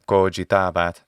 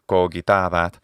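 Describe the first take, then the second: First: The middle g is a soft sound. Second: The middle g is a hard sound. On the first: This is the church pronunciation developed much later. "in the ecclesiastical pronunciation" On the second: This is how Latin was spoken in antiquity. "in the classical pronunciation"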